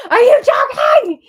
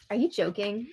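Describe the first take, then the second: First: High, loud shout of disbelief; loud outrage. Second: Softly incredulous question; quiet disbelief. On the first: Viewer reacts to cameras switching, shouted disbelief. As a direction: explode into a much higher yell. Outburst at feeds cutting, second take. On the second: Viewer reacts to cameras switching, quiet disbelief. Reacts to feeds cutting, two takes. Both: Real, not acted.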